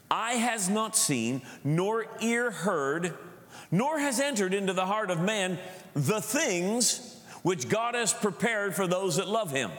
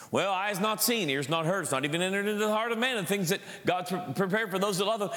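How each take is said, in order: First: Slow, raised declaiming voice; solemn scripture reading. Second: Rattled-off, offhand recitation; rote quoting. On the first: Real, not acted. Preacher reads First Corinthians to the church, slow declaiming. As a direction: read it out deliberately, phrase by phrase. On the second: Retold or imitated. Preacher mimics people quoting the verse again and again, rote. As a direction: toss the verse off like a worn saying. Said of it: "I've heard this quoted again and again".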